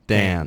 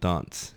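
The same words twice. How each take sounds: First: It is said in an American accent. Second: It is said in a British accent.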